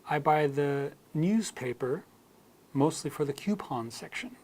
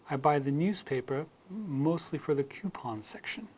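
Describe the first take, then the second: Both takes have the same delivery.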